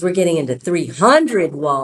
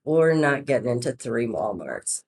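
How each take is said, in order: First: Louder, HUNDRED punched in triumph; spring the surprise, hitting "hundred" hard; excited reveal. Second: Lower, downbeat retold letdown; mock bad news. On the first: Retold or imitated. Saleswoman reveals the real Walmart news, excited. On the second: Saleswoman calling back to tease her boss, mock-downcast. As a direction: break the bad news, feigning disappointment. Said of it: "I've got bad news".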